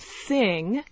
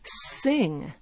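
First: The word begins with a TH sound. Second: The word begins with an S sound. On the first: The speaker calls it right. "There's TH in a word like thing" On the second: The speaker calls it wrong. "a French speaker might pronounce it as sing"

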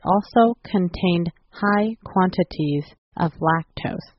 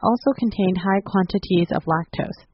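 First: It is spoken at a slower pace. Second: It is spoken at a normal pace.

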